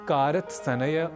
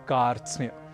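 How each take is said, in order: First: Vowels break the consonant cluster in several places. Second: All five consonants join with no vowel between. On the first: The speaker calls it wrong. "इसे कारत सनय, कारत स्नेय आदि न कहकर" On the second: The speaker calls it right. "हमें कहना है कार्त्स्न्य"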